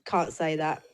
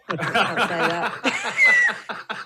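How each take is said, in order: First: Said in the usual way. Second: Put-on a slow, laughing stab at a Scottish accent; laughing Scottish accent try. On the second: Asked by the hosts for her best Scottish accent, slow and laughing Scottish. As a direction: drag it out in a giggly mock Scottish accent. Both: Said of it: "let's have your best Scottish accent then".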